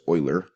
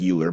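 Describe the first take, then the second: First: The name begins with an 'oi' sound. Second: The name begins with a 'yoo' sound. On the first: The speaker calls it right. "the way you, sp- you pronounce this is Euler, kind of like Euler, O I L E R" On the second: The speaker calls it wrong. "Looks like Euler"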